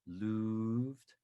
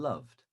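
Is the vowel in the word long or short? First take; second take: long; short. First: The vowel is long. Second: The vowel is short. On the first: "with a long vowel sound" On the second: "or a shorter vowel sound"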